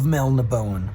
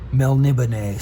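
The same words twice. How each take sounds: First: The ending is said plain, without the accent. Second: The ending is said with the accent. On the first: The speaker calls it wrong. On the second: The speaker calls it right.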